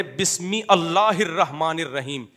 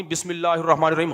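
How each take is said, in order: First: "بسم اللہ" split slowly as bismi ALLAH; mock wrong correction. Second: "بسم اللہ" run together as bismillah; no alif sound at the start of "اللہ"; usual linked reading. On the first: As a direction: stretch out "bismi allahir-rahmanir-rahim", alif of "اللہ" sounded. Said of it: "اصل یہ ہے". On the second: Shown as a demonstration. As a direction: say "بسم اللہ الرحمن الرحیم" joined, "bismillahir-rahmanir-rahim". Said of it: "فلاں آدمی".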